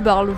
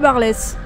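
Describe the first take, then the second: First: The final s of the name is silent. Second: The final s of the name is sounded. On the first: "Ou de Barle, je sais pas comment on dit" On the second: "je prononce toutes les lettres, donc ce sera Barlès"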